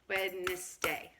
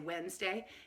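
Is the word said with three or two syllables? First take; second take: three; two. First: The word has three syllables, all pronounced. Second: The word has two syllables, middle one dropped. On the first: This is how the word really is. "It's actually a three syllable word" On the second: This is how it is usually said. "most people say Wednesday"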